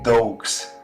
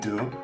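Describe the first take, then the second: First: The word ends with a hard g-s sound. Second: The word ends on the vowel, no final consonant. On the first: This is the speaker's usual Spanish-style reading. The speaker calls it wrong. "Like literally, I would say dogs" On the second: This is the French reading of the word. The speaker calls it right. "I think that would be the correct pronunciation"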